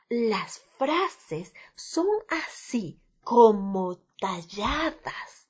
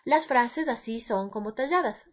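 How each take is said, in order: First: Each word is crisply carved out with varied relief. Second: Each word runs together in a flat, even delivery. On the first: The speaker calls it right. "sino las frases son así como talladas" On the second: The speaker calls it wrong. "no tengo que decir las frases así"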